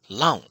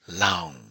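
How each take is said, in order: First: The vowel is short. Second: The vowel is drawn out long. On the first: "short vowel" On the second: "long vowel"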